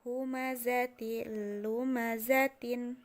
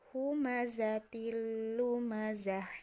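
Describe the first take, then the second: First: The phrase ends with a full 'tin' ending. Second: The phrase ends with a stopped 'h' sound. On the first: The reading continues past this word. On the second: The reading stops on this word.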